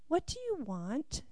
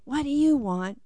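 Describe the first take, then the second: First: It is asked in a gentle, loving tone. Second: It is asked in a curt, annoyed tone.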